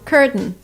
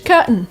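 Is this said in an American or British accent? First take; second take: American; British. First: The t mostly disappears but is faintly there. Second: The t is fully replaced by a glottal stop. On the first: "In America, we would say curtain" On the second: "Curtain is very British"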